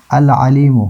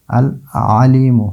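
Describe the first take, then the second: First: Said in the usual way. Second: العلیم slowly, pause after "al", long vowels; lam pronunciation demonstration. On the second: Shown as a demonstration. Teacher showing lam before ain, slow separated العلیم. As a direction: separate العلیم as "al... aleemu", lam clearly sounded. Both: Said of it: "لام کا تلفظ ہوتا ہے".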